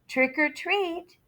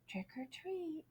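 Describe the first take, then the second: First: It is said a little louder. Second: It is said very softly.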